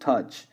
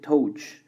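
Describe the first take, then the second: First: The vowel is a short 'uh' sound. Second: The vowel is not a short 'uh' sound. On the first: The speaker calls it right. "it's the closest touch. So the sounds would be uh uh" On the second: The speaker calls it wrong. "we tend to say touch, and that is not correct"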